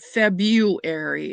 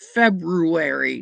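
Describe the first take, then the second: First: The r after the b is left out. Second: The r after the b is clearly pronounced. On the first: The speaker calls it wrong. "not February" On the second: The speaker calls it right. "February has two R's"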